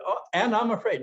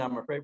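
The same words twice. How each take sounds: First: High, louder frightened cry; mock fear. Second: Said in the usual way. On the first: To himself, naming his fear in a high frightened cry. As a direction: play the scared voice of old fear. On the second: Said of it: "I remember saying".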